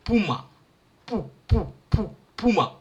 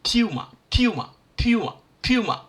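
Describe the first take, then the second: First: "pu" with a plain open u, stressed; African puma. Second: "puma" said "pyuma" with a y glide. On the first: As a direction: repeat "pu" openly before "puma". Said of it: "You see here?". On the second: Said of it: "I'm not saying pum". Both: Shown as a demonstration.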